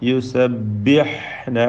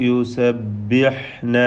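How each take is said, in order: Both takes have the same delivery.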